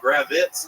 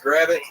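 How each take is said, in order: First: The name ends with a z sound. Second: The name ends with a plain t sound. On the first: The speaker calls it wrong. "they're adding like Z's on it" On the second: The speaker calls it right. "Just it's just Gravitt, phonetically sound"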